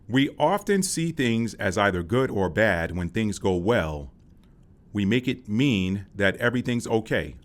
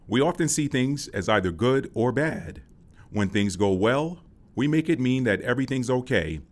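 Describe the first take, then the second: First: The break comes after "well", not after "bad". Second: The break comes after "bad", not after "well".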